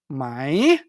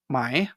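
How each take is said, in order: First: The word is said very strongly and exaggerated. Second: The word is said plainly, at normal strength.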